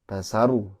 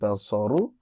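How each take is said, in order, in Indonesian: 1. Bunyi s itu tipis dan biasa. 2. Bunyi s itu tebal dan tegas. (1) "Bapak membaca dengan basaru ya" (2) "Harusnya basaru"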